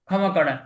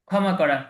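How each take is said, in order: Both takes have the same delivery.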